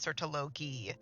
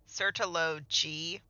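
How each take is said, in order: First: The final g is hard, as in go. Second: The final g is soft, like j. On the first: The speaker calls it right. "It's Sertologi" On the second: The speaker calls it wrong. "Why are they saying Sertolo-G?"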